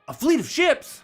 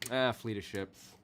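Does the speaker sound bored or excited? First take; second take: excited; bored. First: It sounds engaged and excited. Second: It sounds unimpressed and bored.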